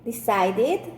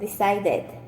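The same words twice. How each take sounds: First: The ending is an extra 'id' syllable. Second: The ending is not an 'id' syllable. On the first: The speaker calls it right. "Or decide, decided" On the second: The speaker calls it wrong. "not decided. It's incorrect"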